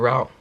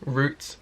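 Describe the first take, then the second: First: It is said with an American pronunciation. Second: It is said with a British pronunciation.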